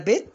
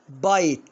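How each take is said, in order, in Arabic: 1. الحركة هي صوت 'i' قصير. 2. الحركة هي صوت 'eye' طويل. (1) "ها هنا اقولها بيت؟" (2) "لا طبعا بايت"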